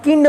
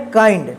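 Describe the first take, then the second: First: किंड said with a short i, as kind rhyming with tinned; demonstrating the mistaken किंड, short vowel; wrong pronunciation. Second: काइंड said with the long diphthong ai, as kaind; giving the right form काइंड with ai; correct pronunciation. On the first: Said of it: "इसको आप किंड मत पढ़िएगा". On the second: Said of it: "क्या पढ़ना है". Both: Shown as a demonstration.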